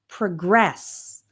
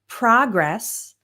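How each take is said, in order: First: The stress is on the second syllable. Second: The stress is on the first syllable. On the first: It is used as a verb. "the verb progress" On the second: It is used as a noun. "the noun progress"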